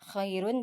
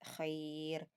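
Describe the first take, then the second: First: The r is heavy, with the ending said. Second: The r is light, with the ending dropped. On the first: The word runs on without a stop. "dibaca tebal ketika wasal" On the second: The reader stops on the word. "Adapun waqaf dibaca dengan tipis"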